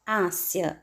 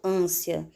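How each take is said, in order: First: The stressed vowel is pronounced open. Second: The stressed vowel is pronounced closed. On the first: The speaker calls it wrong. "Eu não digo ânsia" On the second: The speaker calls it right. "o som é fechado. eu digo ânsia"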